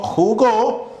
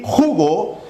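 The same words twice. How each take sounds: First: JuGÓ, pitched up with gó stressed; jugó with the accent landing on the final syllable; stress on last syllable. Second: Slow JUgo, ju drawn out and stressed; stress on first syllable. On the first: Teacher showing where the accent falls, jugó stressed on GÓ. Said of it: "nuestro acento en go". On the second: Teacher showing where the accent falls, jugo stressed on JU. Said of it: "nuestro acento en ju". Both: Shown as a demonstration.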